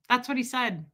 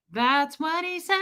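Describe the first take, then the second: First: Said in the usual way. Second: High-pitched can-you-believe-it; incredulous repeat. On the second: Real, not acted. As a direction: repeat it in a high, stretched voice climbing at the end. Repeats it in heightened disbelief.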